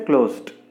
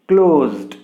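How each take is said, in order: First: The ending is not a voiced z then d. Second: The ending is a voiced z then d. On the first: The speaker calls it wrong. "We should not say closed" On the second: The speaker calls it right. "the sound of this letter is what you can call za sound"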